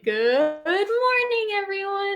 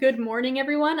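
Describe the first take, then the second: First: It is said in an imitation of Monokuma's voice. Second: It is said in the speaker's normal voice.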